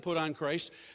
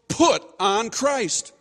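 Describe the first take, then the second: First: It is said softly and tentatively. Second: It is said strongly and pointedly. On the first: It is only a suggestion. "that conveys some confusion" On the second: It is a command. "he's being very strong here. He's being pointed"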